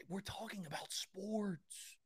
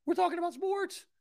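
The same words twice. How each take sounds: First: Slow, softened, drawn-out emphasis; hushed disbelief. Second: Very high, squeaky-excited burst; high-pitched excitement. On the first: Host explaining why he can't be calm about sports, slow and hushed. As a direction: stretch it out softly, incredulous. Mock contrast with calm talk. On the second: Host insisting sports deserve energy, high-pitched and excited. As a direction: leap way up in pitch, thrilled and incredulous. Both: Acted.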